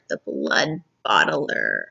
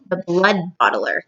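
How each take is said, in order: First: Slow, much lower menacing giant growl; deep giant voice. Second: Said in the usual way. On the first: Shown as a demonstration. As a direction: announce the title like a monster. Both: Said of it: "Now we're on chapter called".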